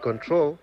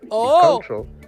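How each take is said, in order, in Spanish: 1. El acento está en la segunda sílaba. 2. El acento está en la primera sílaba. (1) "con el acento en la segunda O, es un sustantivo" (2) "con el acento en la primera O, es el verbo"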